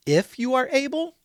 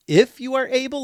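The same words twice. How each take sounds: First: Rising doubtful question. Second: Pushes back on the word are with a rise; challenging echo. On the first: Father questioning Jesus, voice rising in doubt. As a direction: let the line lift into a doubting question. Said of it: "question mark". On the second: Jesus echoing the father's doubt, challenging. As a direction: throw the doubt back at him, leaning on are. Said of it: "Jesus even challenges". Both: Retold or imitated.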